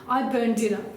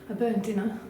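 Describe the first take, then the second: First: It is said plainly, without a soft smile. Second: It is said softly, with a pushing smile.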